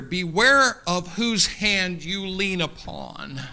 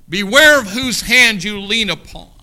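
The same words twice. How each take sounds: First: Measured, slow warning; slow, deliberate caution. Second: Louder, punched warning with BEWARE stressed; loud preached repeat. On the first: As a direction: lay each word down slowly. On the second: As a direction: call it out to the whole church. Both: Shown as a demonstration.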